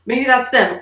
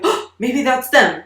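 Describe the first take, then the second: First: Sharp gasp, then a high, eager whisper of hope; gasping excitement. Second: A higher, eager voice full of hope; a little kid straining to hear a car; hopeful kid. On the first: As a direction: catch your breath as if you hear a car. Child hears sound, gasps. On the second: Child waiting for relatives, hopeful. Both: Retold or imitated.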